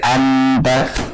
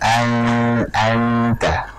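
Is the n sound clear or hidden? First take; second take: clear; hidden. First: The n is pronounced fully and clearly. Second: The n is hidden in a long nasal hum. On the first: The speaker calls it wrong. "jangan sampai menjadi idhar" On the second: The speaker calls it right. "kita jauhkan sedikit"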